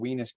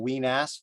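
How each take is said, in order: First: The name is said quickly and altered. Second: The name is said fully and carefully. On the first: This avoids a name that sounded rude. The speaker calls it wrong. "I was mispronouncing the Weenass part because I said it fast" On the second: This is the official local name. The speaker calls it right. "correctly called"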